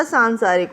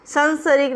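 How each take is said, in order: First: सांसारिक with long aa vowels: saan-saa-rik; correct pronunciation. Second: सांसारिक with short a vowels: san-sa-rik; wrong pronunciation. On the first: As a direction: stretch both aa sounds in सांसारिक. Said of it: "सांसारिक होता है". (सांसारिक में दोनों "आ" लंबे बोलें) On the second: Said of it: "सांसारिक नहीं होता". (सांसारिक को "संसरिक" जैसा बोलें) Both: Shown as a demonstration.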